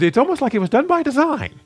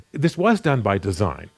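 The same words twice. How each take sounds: First: Much higher, louder mock amazement; sarcastic joke. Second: Said in the usual way. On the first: Preacher joking to the congregation about these corollaries, sarcastic. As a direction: push the pitch way up, sarcastically feigning discovery. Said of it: "I would kind of sarcastically joke and go".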